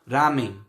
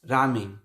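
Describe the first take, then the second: The two takes are said the same way.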